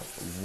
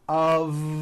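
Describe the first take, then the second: First: The word ends with an unvoiced f sound. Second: The word ends with a voiced v sound. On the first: The speaker calls it wrong. "not a f wood with an unvoiced F" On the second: The speaker calls it right. "It's all voiced and it's all connected"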